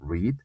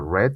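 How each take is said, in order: First: The word does not sound like 'red'. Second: The word sounds exactly like 'red'. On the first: It is the present, base form. "Digo en infinitivo read" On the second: It is the past form. "en su pasado digo red como el color rojo"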